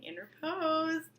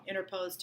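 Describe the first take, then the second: First: Interposed said slowly and higher, each syllable clear; teacher lifting interposed up high and slow; stressed vocab word. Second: Said in the usual way. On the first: Shown as a demonstration. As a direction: spell out interposed slowly for the class. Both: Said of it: "Vocab word".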